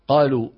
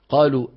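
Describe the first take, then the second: Both takes have the same delivery.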